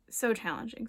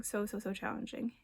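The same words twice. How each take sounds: First: Said in the usual way. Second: So, so, so challenging said much softer and sympathetic; soft empathic emphasis. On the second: Real, not acted. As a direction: lean in quietly, feeling it with them. Repeated for emphasis.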